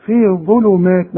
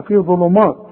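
First: ظلمات with a thin front "maat"; light meem. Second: ظلمات ending in a dark, thick "maat"; wrong heavy meem. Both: Shown as a demonstration. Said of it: "ما تقولش مات بقى".

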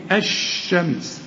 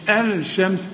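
First: الشمس with lam merged into a doubled sh; assimilated lam. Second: الشمس with the lam sounded, al-shams; wrong lam pronounced. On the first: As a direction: say الشمس as ash-shams. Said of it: "بتضغم فيه الشمس". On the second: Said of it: "مش الشمس". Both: Shown as a demonstration.

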